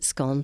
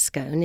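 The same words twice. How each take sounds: First: Scone rhymed with gone, short o; short-o pronunciation. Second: Scone rhymed with bone, long o; long-o pronunciation. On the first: Guide showing how the majority say it, scone with a short o. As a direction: say scone as "skon". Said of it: "The majority of people pronounce it". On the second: Guide showing how quite a number say it, scone with a long o. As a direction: say scone as "skone". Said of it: "quite a number pronounce it". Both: Shown as a demonstration.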